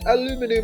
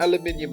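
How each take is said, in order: First: It is said with four syllables, ending 'minum'. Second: It is said with five syllables, ending 'minium'. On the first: "just different pronunciations" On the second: "British people say aluminium"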